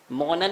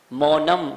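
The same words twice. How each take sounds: First: मौनन ending on n; wrong ending. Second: मौनम closed on a held m; correct ending. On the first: Teacher showing what not to say, wrong ending. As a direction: close मौनन on n instead of m. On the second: Teacher showing the right final sound, correct ending. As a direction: hum briefly on the m of मौनम. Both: Shown as a demonstration. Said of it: "मौनन नहीं".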